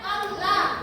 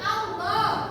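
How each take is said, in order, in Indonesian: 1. Huruf L dibaca tipis, ringan, dan jelas. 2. Huruf L dibaca tebal, gelap, dan penuh. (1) "Kalau tipis bilang Allah" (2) "cara membaca lafaz awal ketika tebal"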